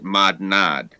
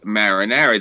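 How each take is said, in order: First: The middle consonants sound like n and d. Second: The middle consonants are r sounds. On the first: This is the Corleone dialect form. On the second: This is the standard form.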